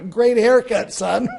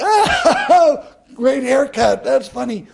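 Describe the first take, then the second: First: Louder, laughing mockery; laughing tease. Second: High, loud mocking laugh-line; laughing mockery. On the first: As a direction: tease him through laughter. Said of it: "he's laughing. He says". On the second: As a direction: siblings cracking up at him.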